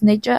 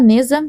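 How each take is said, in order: First: The middle consonant sounds like a 'zh'. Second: The middle consonant sounds like a 'z'. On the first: This is closer to the author's own pronunciation. The speaker calls it right. "é mais ou menos Neja a pronúncia" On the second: This is how the name used to be pronounced. The speaker calls it wrong. "eu, inclusive, pronunciava Neza"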